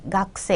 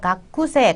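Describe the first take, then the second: First: The middle u vowel is dropped. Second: The middle u vowel is clearly pronounced. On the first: "각세 이렇게 발음이 되는" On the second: "각쿠세 아니고"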